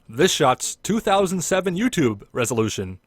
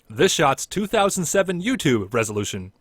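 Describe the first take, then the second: First: It pauses before and after the year. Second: It is said without pauses around the year. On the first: The speaker calls it wrong. "like a pause before and after that. Too slow" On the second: The speaker calls it right.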